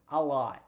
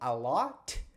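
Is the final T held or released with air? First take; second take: held; released. First: The final T is held without releasing air. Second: The final T is released with a puff of air. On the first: The speaker calls it right. "você não solta o ar. Então, ... vai sair a lot" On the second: The speaker calls it wrong. "ao invés de sair a lot"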